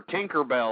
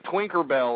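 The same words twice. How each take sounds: First: Said in the usual way. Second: Twinkerbell said with an extra w before the i; slurred mispronunciation. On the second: Real, not acted. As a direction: slur Tinkerbell into Twinkerbell. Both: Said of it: "How come I can't say Tinkerbell?".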